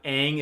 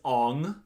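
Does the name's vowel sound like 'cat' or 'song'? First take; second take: cat; song. First: The vowel sounds like the one in 'cat'. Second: The vowel sounds like the one in 'song'. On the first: This is how the show says it. "they're different from the show" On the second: This is how the film says it. "The pronunciations are all wrong. Well, they're not wrong, but they're different from the show"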